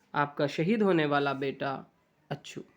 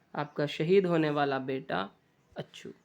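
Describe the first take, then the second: Both takes have the same delivery.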